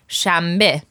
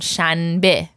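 First: The middle consonant is an m sound. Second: The middle consonant is an n sound. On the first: This is how people actually say the word. "everyone pronounces it with a me sound" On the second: This matches the written form of the word. "In written, it's actually with a ne sound"

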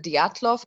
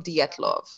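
First: The first vowel sounds like 'ya'. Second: The first vowel sounds like 'e'. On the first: "we would normally call it the Dyatlov" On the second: "pronounced it with an E sound"

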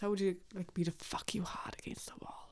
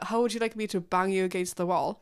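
First: It is said in a sultry, seductive voice. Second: It is said in a plain, ordinary voice.

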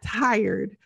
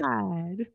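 First: The word is said with an R sound. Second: The word is said with no R sound. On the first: "Not tired" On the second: "Forget the R. Even the R left"

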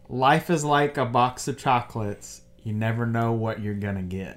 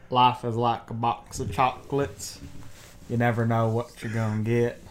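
First: It is said in the speaker's normal voice. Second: It is said in a Forrest Gump impression.

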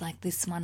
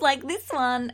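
First: It is said in a low, sultry voice. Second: It is said in a bright, happy voice. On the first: "And then I can do my sexy voice like this one" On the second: "just do my happy voice like this one"

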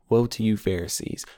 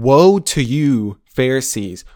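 First: It is said in a soft, hushed voice. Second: It is said forcefully and angrily.

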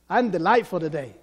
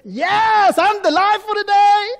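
First: It is said with stronger, more moderate delight. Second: It is said with intense, excited delight.

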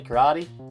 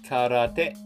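First: It is said with an Australian English pronunciation. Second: It is said with a Japanese pronunciation. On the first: The speaker calls it wrong. "in Australia you say Karate" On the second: The speaker calls it right. "it's actually pronounced Karate"

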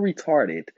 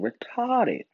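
First: The word is said quickly. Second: The word is said slowly.

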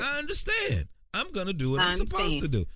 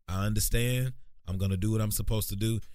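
First: The voice goes up to a higher pitch. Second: The voice stays at a lower, level pitch.

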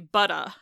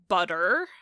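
First: The word ends with a vowel, no R. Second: The word ends with an R sound. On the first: "they just drop that R off entirely and replace it with a vowel" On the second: "that R is basically just an American English R by itself"

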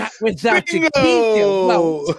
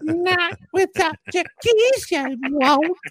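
First: It is said in a normal voice. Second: It is said in an old person's voice.

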